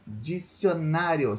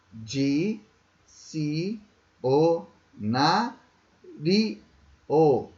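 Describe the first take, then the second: First: Said in the usual way. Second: Di-ci-o-na-ri-o very slowly, a pause after each syllable; Di-ci-o-na-ri-o chopped into slow, separate beats. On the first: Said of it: "Cinco sílabas". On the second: Shown as a demonstration. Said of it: "Quantas sílabas são?".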